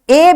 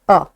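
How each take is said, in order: First: The word is said in its full form. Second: The word is said as a short weak 'uh'.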